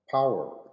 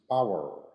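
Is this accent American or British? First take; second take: American; American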